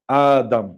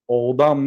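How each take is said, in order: First: The word begins with an a vowel. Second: The word begins with an o vowel. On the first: The speaker calls it right. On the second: The speaker calls it wrong. "о хонда намешавад, одам не аслаш"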